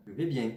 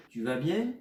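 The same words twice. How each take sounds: First: «Je vais bien.» ending on a firm fall; falling statement. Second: «Tu vas bien?» ending on a rise; rising question. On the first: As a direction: say «Je vais bien.» closing down like a full stop. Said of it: "Quatrième ton". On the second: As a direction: ask «Tu vas bien?» with an upward tune. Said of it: "en disant". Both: Shown as a demonstration.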